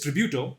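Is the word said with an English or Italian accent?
English. It is said with an English accent. "but it is Tributo"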